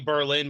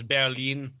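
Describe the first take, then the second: First: It is said with an English pronunciation. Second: It is said with a German pronunciation. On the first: This is how English speakers say it. "we say Berlin" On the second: This is how it is said in German. "but it's Berlin"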